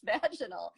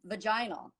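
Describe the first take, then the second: First: It is said in an American pronunciation. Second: It is said in a British-style pronunciation. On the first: "I don't think that that's how you say it" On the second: "grew up ... in a British sort of a style of, of English"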